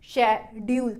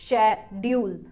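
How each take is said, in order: The two takes are said the same way.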